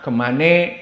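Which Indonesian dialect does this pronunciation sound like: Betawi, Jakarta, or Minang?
Betawi. It ends in an 'e' vowel, Betawi-style.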